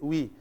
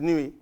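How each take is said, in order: First: The name ends without its final vowel sound. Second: The name ends with its final vowel sound. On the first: This is how Nigerians say it. "the end is silent" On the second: The name is said as it is written. "we pronounce it as it is"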